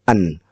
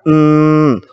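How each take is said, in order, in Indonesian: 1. Bunyi n pendek tanpa dengung hidung. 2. Bunyi n ditahan dengan dengung hidung. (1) "kalau tidak dengung kita hanya mengatakan en" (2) "dengung itu adalah ... maka bunyinya adalah en"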